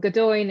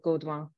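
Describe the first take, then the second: First: The name is said with English sounds. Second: The name is said with French sounds. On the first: This is how the family says it. The speaker calls it wrong. "is how we say it" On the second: This is the correct original form. The speaker calls it right. "should be properly"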